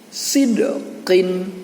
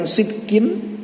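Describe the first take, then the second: First: The middle consonant is released with a bounce. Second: The middle consonant stops flat with no bounce. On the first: The speaker calls it right. "harus dipantulkan dengan bunyi sid" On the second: The speaker calls it wrong. "tidak cukup menyebutkan sitkin"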